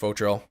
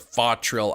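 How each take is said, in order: First: The first syllable sounds like 'foe'. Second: The first syllable sounds like 'fah'. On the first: "faux like faux mantis" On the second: "fa like a fox"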